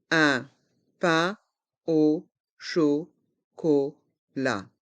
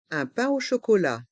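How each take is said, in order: First: Slow "Un pain au chocolat", a gap after every syllable; learner-paced, split "Un pain au chocolat". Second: Said in the usual way. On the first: Shown as a demonstration. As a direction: separate each sound of "Un pain au chocolat". Teacher breaks phrase into syllables.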